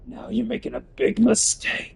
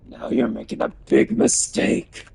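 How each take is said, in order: First: Same threat pitched way up; high cartoon threat; high take. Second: Said in the usual way. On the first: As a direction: squeak the warning up high. Repeat pitched up.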